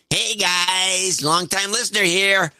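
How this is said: It is said in an exaggerated YouTuber voice.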